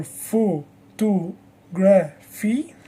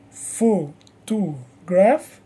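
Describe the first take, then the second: First: Photography in slow, separate syllables, rising at the end; drawn-out photography, syllable by syllable; shifted stress demo. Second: Photograph in slow, separate syllables, rising at the end; drawn-out photograph, syllable by syllable; word stress demo. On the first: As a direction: say photography very slowly, one beat per syllable. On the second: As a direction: say photograph very slowly, one beat per syllable. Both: Shown as a demonstration. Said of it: "the stress moves because the word is longer".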